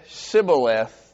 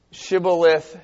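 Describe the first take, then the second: First: "Shibboleth" said with a plain s, sibboleth; sibboleth said wrong. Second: "Shibboleth" with a clear sh at the start; shibboleth said right. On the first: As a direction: say "Shibboleth" with s instead of sh. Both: Shown as a demonstration. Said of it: "This is what we're looking at".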